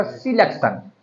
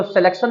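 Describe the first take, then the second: First: "सिलेक्शन" with a short i in the first syllable; correct pronunciation of selection. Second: "सिलेक्शन" with an e in the first syllable; wrong pronunciation of selection. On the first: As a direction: say "सिलेक्शन" as si-LEK-shun. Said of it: "होता सिलेक्शन". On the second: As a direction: say "सिलेक्शन" as seh-LEK-shun. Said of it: "तो सिलेक्शन नहीं होता". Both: Shown as a demonstration.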